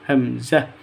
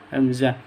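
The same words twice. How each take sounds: No difference in how they are said.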